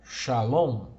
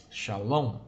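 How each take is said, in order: First: "shalom" said loud and clear, sha-LOM with a falling end; Hebrew word shalom. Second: Said in the usual way. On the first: Shown as a demonstration. Teacher modelling "shalom" for students, loud and clear. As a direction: loudly model "shalom" for the class. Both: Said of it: "temos a palavra hebraica aí".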